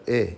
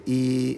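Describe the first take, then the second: First: Eh as the short i of igloo; short, lax vowel for eh. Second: E as a long, held ee; long ee sound on e; mistaken vowel. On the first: Shown as a demonstration. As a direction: say eh short, like the i in iguana. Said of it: "instead of eh". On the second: Retold or imitated. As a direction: draw e out as ee, as learners do. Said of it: "they'll say e instead of eh".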